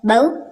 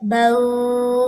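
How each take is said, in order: First: The final vowel is cut off with a jerk. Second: The final vowel is stretched out long. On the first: "तो ये झटका हो जाएगा" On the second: "तो ये लंबा हो गया"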